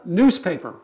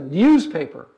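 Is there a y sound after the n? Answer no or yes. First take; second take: no; yes. First: The n is followed directly by an oo sound. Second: The n is followed by a y sound. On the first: This is how younger people say it. "For you, it's a newspaper" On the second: This is how older people say it. "For them, it's a newspaper. ... the y sound there"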